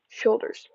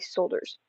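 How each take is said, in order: First: The word begins with a full sh sound. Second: The word begins with a plain s sound. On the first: The speaker calls it right. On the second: The speaker calls it wrong.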